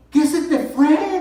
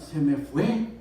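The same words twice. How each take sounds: First: High, loud, drawn-out question; wife's startled yell, reenacted; imitating alarmed wife. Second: Said in the usual way. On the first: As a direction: shout it back in shocked disbelief. Wife shouts back in alarm.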